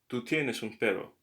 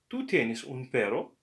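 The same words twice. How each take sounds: First: The voice falls at the end. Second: The voice rises at the end.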